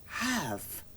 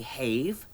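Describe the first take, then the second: First: The a is short, as in mad. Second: The a is long, as in made. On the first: The speaker calls it right. "you say have" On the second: The speaker calls it wrong. "You don't say have"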